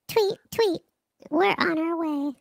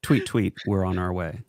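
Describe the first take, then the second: First: It is said in a put-on mockingbird voice. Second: It is said in the speaker's own dramatic voice.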